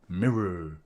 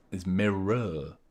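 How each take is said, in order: First: "Mirror" short, sounding like one syllable; clipped mirror. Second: "mirror" slow, leaning on the er at the end; drawn-out mirror. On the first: Streamer testing mirror as one syllable, short. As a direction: say "Mirror" quickly as one beat. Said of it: "you start the word mirror". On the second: Streamer showing the hidden er in mirror, slowly. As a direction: stretch the "mirror" ending out. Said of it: "there's an er at the end of it". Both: Shown as a demonstration.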